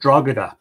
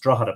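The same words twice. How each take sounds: First: The G in the middle is pronounced. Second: The G in the middle is silent. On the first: The speaker calls it wrong. "they think the G should be pronounced" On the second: The speaker calls it right. "the G is silent and it's pronounced Drogheda"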